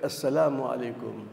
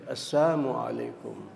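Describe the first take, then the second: First: The greeting is said with the 'l' sound. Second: The greeting is said without the 'l' sound. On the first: "bukan Assalamualaikum" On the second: "tanpa huruf lam"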